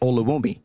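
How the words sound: The name is said in a Canadian accent.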